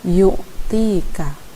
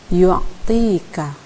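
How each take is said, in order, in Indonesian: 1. Tidak ada bunyi 'a' sebelum ain. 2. Ada bunyi 'a' samar sebelum ain. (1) "bukan yu'tika" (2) "di antara kedua huruf itu ada kesan a sedikit. Misalnya yu'tika"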